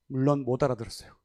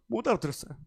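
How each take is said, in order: First: Said in the usual way. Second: 못 알아들었어요 said through a laugh, quick. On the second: Real, not acted.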